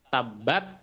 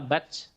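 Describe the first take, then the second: First: The final t is released with plain breath. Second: The final t is released with an s-like hiss. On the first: The speaker calls it right. "udara yang keluar saja" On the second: The speaker calls it wrong. "bukan menjadi tabat"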